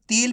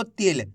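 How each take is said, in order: First: "तिल" stretched into a long "teel"; drawn-out vowel. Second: "तिल" with a brief, clipped i; short vowel. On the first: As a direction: hold the i in "तिल" too long. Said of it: "तिल पढ़ दोगे खींच के". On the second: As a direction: say "तिल" quickly, without stretching the vowel. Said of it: "कम खींच के पढ़ा जाता है". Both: Shown as a demonstration.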